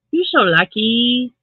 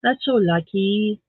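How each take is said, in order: First: So stretched out and louder, slowly; stress on so. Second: Said in the usual way. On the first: Shown as a demonstration. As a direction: lean on so, slow and a bit louder.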